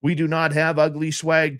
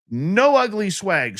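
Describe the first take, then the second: First: Said in the usual way. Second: "No" said slowly, loud and high; "No ugly swag" punched slow and loud; stress on NO. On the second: Real, not acted.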